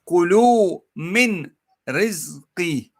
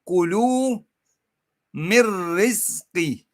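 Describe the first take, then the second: First: The n sound is clearly pronounced before rizqi. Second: The n merges fully into the following r. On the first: The speaker calls it wrong. "I'm going to read it first as it is written" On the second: The speaker calls it right. "the way it should be read"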